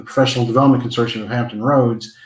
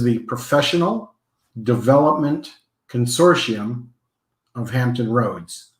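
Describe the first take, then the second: First: The name is said at normal speed. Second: The name is said a little slower.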